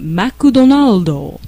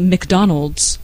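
First: It is said with a Japanese pronunciation. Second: It is said with an English pronunciation. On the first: "because of the peculiarities of Japanese pronunciation" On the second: "like we do in English"

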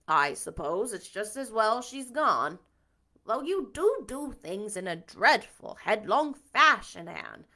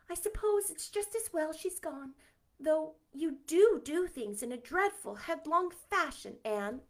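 First: It is read in Marilla's character voice. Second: It is read in a different character's voice.

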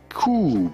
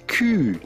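First: The syllable has no 'y' glide before the vowel. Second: The syllable has a 'y' glide before the vowel. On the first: The speaker calls it wrong. "not coup" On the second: The speaker calls it right. "it's Q"

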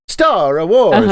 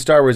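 First: It is said in an Italian accent. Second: It is said in a plain accent.

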